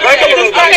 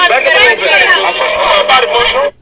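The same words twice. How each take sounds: First: Said in the usual way. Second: Whispered, drawn out slowly. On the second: Acted. Preacher telling the crowd to back up, in a slow whisper. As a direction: breathe it out slow and hushed.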